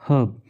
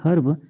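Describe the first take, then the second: First: The r sound is silent in the word. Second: The r sound is clearly pronounced in the word. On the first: The speaker calls it right. "जो आर है वो silent हो जाता है" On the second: The speaker calls it wrong. "या फिर हर्ब नहीं पढ़ेंगे"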